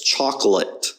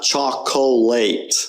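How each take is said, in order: First: "chocolate" as CHOK-lut, O swallowed; natural schwa chocolate. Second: "chocolate" as chok-oh-LATE, every vowel full; over-pronounced chocolate. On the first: Teacher correcting students, "chocolate" with weak unstressed vowels. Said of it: "It's chocolate". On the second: Teacher showing students the mistake, "chocolate" as chok-oh-late. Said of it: "it's not chocolate". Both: Shown as a demonstration.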